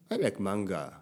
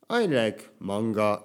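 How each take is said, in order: First: Manga is said with English pronunciation and intonation. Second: Manga is said with Japanese pronunciation and pitch. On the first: The speaker calls it right. "こっちの方がやっぱり英語っていうのはもちろん英語のイントネーションがある" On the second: The speaker calls it wrong. "漫画っていう日本語の発音で言うと"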